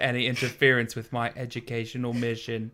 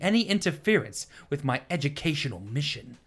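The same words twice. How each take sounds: First: The line is read without any emotion. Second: The line is read with strong emotion. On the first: The speaker calls it right. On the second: The speaker calls it wrong.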